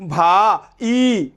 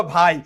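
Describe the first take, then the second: First: ভা and ই slowly pulled apart into two syllables; wrong vowel split. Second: ভাই in one unbroken syllable; correct diphthong. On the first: Teacher showing the mistake to students, ভা, ই as separate syllables. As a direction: stretch ভা, then add ই as its own beat. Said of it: "কিন্তু তুমি কি বলবা". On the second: Teacher giving students the right form, ভাই as one syllable. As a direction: glide from আ into ই within one beat of ভাই. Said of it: "No, তুমি বলবা". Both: Shown as a demonstration.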